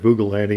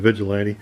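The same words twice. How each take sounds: First: "Vugilanti" with oo and hard g, as printed; misspelled name. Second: Said in the usual way. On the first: Shown as a demonstration. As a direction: say the typo "Vugilanti" as VOO-guh-LAN-tee. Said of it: "It said Vugilanti instead of Vigilante". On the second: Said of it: "instead of Vigilante".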